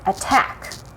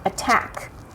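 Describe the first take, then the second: First: The stress is on the second syllable. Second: The stress is on the second syllable.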